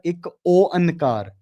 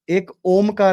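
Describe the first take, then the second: First: The middle is said as separate 'o-an' sounds. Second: The middle is said with an 'om' sound. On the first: The speaker calls it right. "मतलब कि रब एक है" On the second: The speaker calls it wrong. "एक ओमकार नहीं होता"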